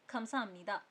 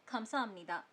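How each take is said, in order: No difference in how they are said.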